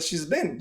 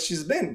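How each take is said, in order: First: She has is shortened to one syllable. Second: She has is shortened to one syllable.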